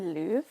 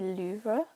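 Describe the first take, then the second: First: It is pronounced the way Americans say it. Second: It is pronounced the way English people say it. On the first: "that's what Americans say" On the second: "a lot of the English people I know say Louvre"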